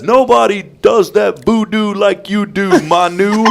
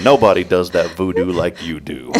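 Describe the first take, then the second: First: High, slow, stretched play-by-play call; sportscaster call. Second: Said in the usual way. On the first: Retold or imitated. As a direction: belt it out like a big sports call. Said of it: "he had the greatest call". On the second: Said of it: "I just started thinking".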